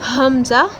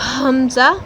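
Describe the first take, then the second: The two takes are said the same way.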